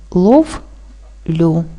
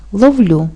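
First: "ловлю" split into "лов", long pause, "лю"; syllable by syllable. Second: Said in the usual way. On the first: Shown as a demonstration. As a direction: say "лов", stop, then "лю". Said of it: "Правильно поділити на склади буде так". («ловлю» по складах: лов — лю) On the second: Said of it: "Наприклад, такі слова".

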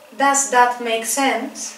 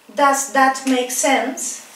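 The two takes are said the same way.

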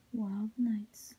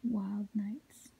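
No difference in how they are said.

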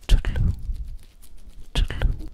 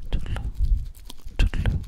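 Both takes have the same delivery.

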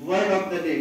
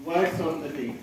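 First: Said in the usual way. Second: "words" with a clear final s, said softer; corrected to plural. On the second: Shown as a demonstration.

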